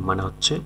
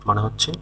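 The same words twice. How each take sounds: The two takes are said the same way.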